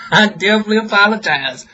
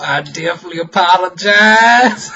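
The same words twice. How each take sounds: First: Laughing apology. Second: Said in the usual way. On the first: Real, not acted. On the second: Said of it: "laughs, repeats apology".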